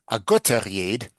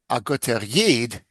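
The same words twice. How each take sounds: First: It is said as one single word. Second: It is said as two separately stressed words.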